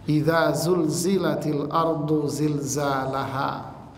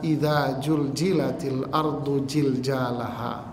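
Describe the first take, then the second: First: The repeated consonants are said as z sounds. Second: The repeated consonants are said as j sounds. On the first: The speaker calls it right. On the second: The speaker calls it wrong. "Banyak orang membaca"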